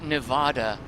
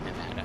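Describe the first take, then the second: First: The stressed vowel sounds like the vowel in odd. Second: The stressed vowel sounds like the vowel in add.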